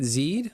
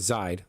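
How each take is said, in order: First: The vowel sounds like the letters E E. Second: The vowel sounds like the letters A Y. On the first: "Like like Z E E D" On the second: "as if it was spelled Z A Y D"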